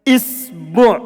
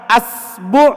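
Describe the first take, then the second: First: The word begins with the vowel i. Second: The word begins with the vowel a. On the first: "Kalau dibaca kasrah" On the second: "kalau dibaca A"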